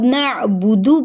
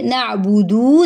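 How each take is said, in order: First: The final vowel is short. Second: The final vowel is long. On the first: The speaker calls it right. "नअबुदु पढ़ेंगे" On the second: The speaker calls it wrong. "नअबुदु नहीं पढ़ेंगे दू ... एक हर्फ की एडिशन"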